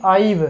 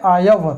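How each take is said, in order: First: आइव with the two vowels drawn apart; आइव split as ah-eev, the wrong way; wrong two-vowel I've. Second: आयव glided quickly as one syllable; आयव, quick and joined, not two vowels; say I've as one sound. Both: Shown as a demonstration. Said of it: "ये नहीं कि आइव".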